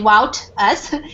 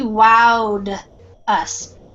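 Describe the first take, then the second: First: The verb ending is a T sound. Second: The verb ending is a D sound. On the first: The speaker calls it wrong. "Instead of the T, you don't say wout us" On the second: The speaker calls it right. "this ed ending is more like a D sound"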